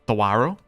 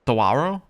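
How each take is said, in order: First: The 'a' vowel gets strong emphasis. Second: The 'a' vowel gets only light emphasis.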